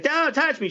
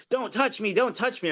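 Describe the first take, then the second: First: Squeaky high mock panic; mocking the protester, far higher. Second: High mock panicky voice; mocking a protester, much higher. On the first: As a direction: shriek it like a hysterical lady. Retold protester, much higher. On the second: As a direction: imitate her shrieking don't touch me. Retold shrill protester quote.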